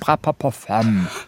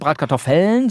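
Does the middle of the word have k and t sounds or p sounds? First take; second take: p; k and t. First: The middle has p sounds instead. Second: The middle has k and t sounds. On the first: "sondern Bratpapoffeln" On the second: "Deshalb keine Bratkartoffeln"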